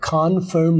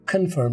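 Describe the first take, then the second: First: The first syllable has a long 'kon' vowel. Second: The first syllable has a short 'kun' vowel. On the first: The speaker calls it wrong. "नहीं होता" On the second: The speaker calls it right. "होता है"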